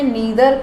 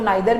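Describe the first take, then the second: First: The first vowel sounds like 'ee'. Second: The first vowel sounds like 'eye'. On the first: "इसको मैंने नीदर pronounce किया है" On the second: "आप इसको नाइदर भी बोल सकते हैं, बोथ आर करेक्ट"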